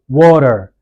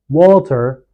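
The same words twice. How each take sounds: First: The middle consonant is a light d sound. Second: The middle consonant is a clear t sound. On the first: The speaker calls it right. "you say" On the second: The speaker calls it wrong. "instead of saying"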